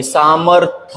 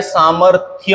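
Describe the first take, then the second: First: सामर्थ ending in plain 'tha'; form without y. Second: सामर्थ्य ending in 'thya'; form with y. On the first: Teacher quizzes students on two forms, सामर्थ without y. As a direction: end सामर्थ with no y glide. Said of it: "होता है या". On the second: Teacher offers students the second option, सामर्थ्य with y. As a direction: sound the y glide in सामर्थ्य. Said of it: "सामर्थ्य होता है". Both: Shown as a demonstration.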